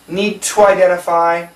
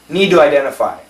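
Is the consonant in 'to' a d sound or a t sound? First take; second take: t sound; d sound. First: The word 'to' starts with a crisp t sound. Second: The word 'to' starts with a soft d sound. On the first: "We can keep the T" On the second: "We can change it to a D"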